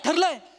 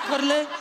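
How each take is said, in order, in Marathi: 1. तो ठामपणे आणि आत्मविश्वासाने म्हटला आहे, विधानासारखा. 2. तो कमकुवतपणे आणि संकोचून म्हटला आहे, प्रश्नासारखा. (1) "कॉन्फिडन्सली सांग ना" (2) "ठरलंय असं काय केलंस तू?"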